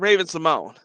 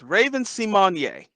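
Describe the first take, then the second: First: The surname ends with an 'n' sound. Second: The surname ends with an 'ay' vowel. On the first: The speaker calls it wrong. "her name is not [name]" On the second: The speaker calls it right. "It's Raven Simonier"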